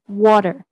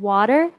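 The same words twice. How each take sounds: First: WATER with a very rounded first vowel, louder. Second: Said in the usual way. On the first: Shown as a demonstration. Presenter correcting water for the class, rounded vowel in water. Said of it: "again, are very rounded". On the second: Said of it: "instead of water".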